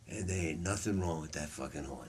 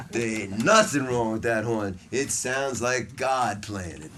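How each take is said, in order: First: Low, soft, offhand quoted reassurance; understated verdict. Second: NOTHING punched loud, drawn-out quoted line; slow it down and hit "nothing" hard; emphatic verdict. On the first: [name] handing back [name]'s alto, quietly understated. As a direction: drop it low and quiet, almost thrown away. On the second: Teacher repeating [name]'s verdict on the horn, loud and emphatic. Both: Retold or imitated.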